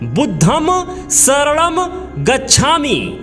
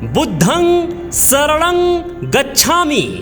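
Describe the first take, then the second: First: The words end with a full m sound. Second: The words end with a nasalized vowel. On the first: The speaker calls it wrong. "क्या नहीं बोलना है?" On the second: The speaker calls it right. "बोलना क्या है?"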